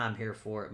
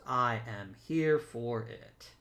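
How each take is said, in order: First: Said in the usual way. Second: "I am here for it" spelled out slowly, word by word; slow, deliberate weight on "I am here for it"; emphatic restatement. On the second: Real, not acted. Gamer repeats his approval of the players, slowly and emphatically.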